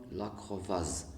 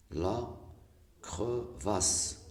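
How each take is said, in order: First: "crevasse" mispronounced with a final Z sound; S voiced as Z. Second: "crevasse" said slowly, ending in a voiceless S; correct S sound. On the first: Teacher showing what one S gives, "crevasse" ending in Z. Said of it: "si vous écrivez une seule S". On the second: Teacher showing the double-S word, "crevasse" with a voiceless S. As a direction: end "crevasse" on a clear hissed S, not Z. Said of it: "ça donne la crevasse". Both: Shown as a demonstration.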